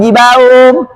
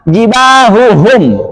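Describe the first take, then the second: First: The second ha sound is dropped. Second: The second ha sound is clearly heard. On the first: The speaker calls it wrong. "jangan sampai" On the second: The speaker calls it right. "nggak boleh samar, harus jelas"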